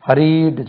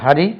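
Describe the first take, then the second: First: ஹரிட்டு with a drawn-out ee and added u; mispronounced ending. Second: Said in the usual way. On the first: Shown as a demonstration. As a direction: stretch the second syllable of ஹரிட்டு. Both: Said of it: "ஹரிட்டு சொல்லக்கூடாது".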